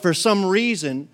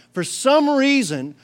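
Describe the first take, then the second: First: Said in the usual way. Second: "some" drawn out and higher; emphatic repeat. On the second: Real, not acted. Preacher asks about roadblocks, stressing "some" high and long. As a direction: lean slowly on "some" in "for some reason".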